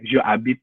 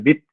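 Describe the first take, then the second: First: Je is said as its own separate syllable. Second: Je is joined directly onto the verb. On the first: The speaker calls it wrong. "nggak enak juga nggak sih ya" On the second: The speaker calls it right. "Enaknya jabit gitu"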